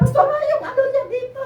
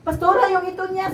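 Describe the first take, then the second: First: Much higher, half laughing half crying; the second plea, breaking between a laugh and a sob; laughing through tears. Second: Urgent plea. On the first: Asking Pastora about the baby, half laughing half crying. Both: Retold or imitated. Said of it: "Dalawang beses talaga".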